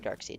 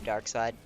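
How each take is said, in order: First: The second part rhymes with 'reed'. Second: The second part rhymes with 'ride'. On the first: "depending on how you want to pronounce it" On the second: "depending on how you want to pronounce it"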